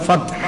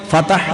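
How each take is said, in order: First: "ഫത്ഹ്" as one syllable fat plus breathed h; vowelless t. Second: "ഫത്ഹ്" said as fa-tah, two open syllables; wrong extra vowel. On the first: Teacher corrects "ഫത്ഹ്" for students, fat-h without middle vowel. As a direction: close the t in "ഫത്ഹ്", then breathe the h. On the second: Teacher warns students off "ഫത്ഹ്" as fa-tah, extra vowel. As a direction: add an a after the t in "ഫത്ഹ്". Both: Shown as a demonstration. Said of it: "എന്നല്ല കേട്ടോ".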